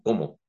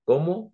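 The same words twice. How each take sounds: First: "¿Cómo?" flat with a falling end; statement como. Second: "¿Cómo?" rising high and loud; question cómo. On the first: Father contrasting the two words, plain and falling. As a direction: drop the pitch on "¿Cómo?" like a statement. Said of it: "si estoy comiendo". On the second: Father contrasting the two words, with a high question rise. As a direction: ask "¿Cómo?" with a big upward leap. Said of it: "como pregunta". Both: Shown as a demonstration.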